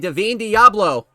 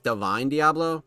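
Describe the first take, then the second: First: The first name is not said like 'divine'. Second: The first name is said like 'divine'. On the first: This is how the player's name is actually pronounced. The speaker calls it right. "Apparently that's how you pronounce it" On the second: This is how the name looks from its spelling. The speaker calls it wrong. "I thought it was Divine Diablo because it's spelt like that"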